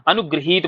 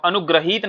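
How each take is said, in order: First: अनुग्रहीत said as anu-gri-heet; correct gri sound. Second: अनुग्रहीत with gra before heet; wrong gra sound. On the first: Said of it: "अनुग्रहीत बोलना है". (अनुग्रहीत को अनुगृहीत बोलें) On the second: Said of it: "अनुग्रहीत नहीं बोलना है". (अनुग्रहीत, ग्र में अ के साथ) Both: Shown as a demonstration.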